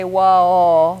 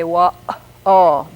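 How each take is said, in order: First: WA'AL slow, just vowels run together after the W; no glottal stop. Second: WA'AL drawn out with a catch in the throat mid-word; glottal stop. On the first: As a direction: glide through WA'AL without any catch. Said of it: "with just vowels after the W". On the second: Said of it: "that catch in the throat in the middle". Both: Shown as a demonstration.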